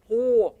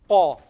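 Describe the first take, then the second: First: The lips are rounded and pushed forward. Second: The lips are spread, not pushed forward. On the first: The speaker calls it wrong. "I moved them forward. That's wrong" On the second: The speaker calls it right.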